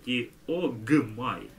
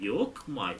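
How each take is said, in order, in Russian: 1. Перед m звонкий звук g. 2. Перед m глухой звук k. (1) "вот это к превращается в звонкую г" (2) "не диокмай"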